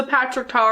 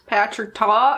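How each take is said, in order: First: Said in the usual way. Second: Slight southern drawl on the name; southern accent. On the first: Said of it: "I got a southern accent". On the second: Real, not acted. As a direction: slip lightly into a southern accent. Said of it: "why I got a southern accent".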